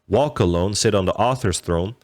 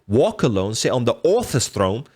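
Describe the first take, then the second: First: It is said in a plain American accent. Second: It is said in an imitated British accent. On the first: It sounds bland. "If you were to say that" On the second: It sounds more interesting. "because he has the accent, it's like"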